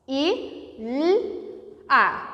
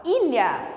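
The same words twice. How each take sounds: First: "I, L, A" as three separate sounds, L palatal like lh; phoneme by phoneme. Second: Said in the usual way. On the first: Shown as a demonstration. Teacher counting the phonemes in ilha, sounded out one by one. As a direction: sound out "I, L, A" with pauses, L as lh. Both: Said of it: "três fonemas".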